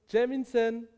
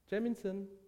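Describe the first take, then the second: First: The name is called louder and more insistently. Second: The name is called calmly and softly. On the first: The caller is becoming impatient. "langsam wütend werdenden" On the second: The caller is still calm.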